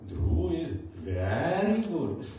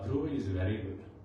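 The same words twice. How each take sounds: First: It is said with strong emphasis. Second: It is said plainly, without emphasis.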